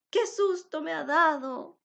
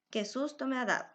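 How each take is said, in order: First: It is said with surprise and emotion. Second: It is said flatly, without emotion.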